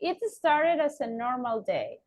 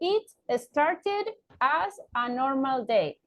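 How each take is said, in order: First: The words run together, consonants linked to vowels. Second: Each word is said apart, with small breaks. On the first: The speaker calls it right. "we can link it over here" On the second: The speaker calls it wrong. "I can separate the word. ... that sounds like robotic"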